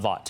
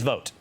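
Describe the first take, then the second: First: The name does not rhyme with vote. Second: The name rhymes with the word vote. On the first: The speaker calls it wrong. "not Vought" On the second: The speaker calls it right. "It is Vought"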